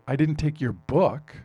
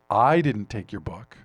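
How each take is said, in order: First: The word "book" is stressed. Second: The word "I" is stressed. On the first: Something else of yours was taken. "I took your computer, I took your wallet" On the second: Someone else took it. "probably means somebody else did, but I didn't take it"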